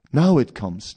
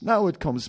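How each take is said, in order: First: Eager. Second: Higher, more thrilled repeat; eager, pitch rising higher. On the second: Tempted devotee seeing the cannabis, higher thrilled repeat. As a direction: build the excitement. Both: Acted.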